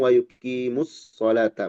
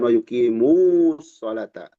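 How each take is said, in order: First: The vowel before the s is short. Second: The vowel before the s is drawn out. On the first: The speaker calls it right. "kalau disambung" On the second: The speaker calls it wrong.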